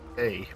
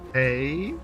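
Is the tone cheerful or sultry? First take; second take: sultry; cheerful. First: It is said in a sultry way. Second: It is said in a cheerful way.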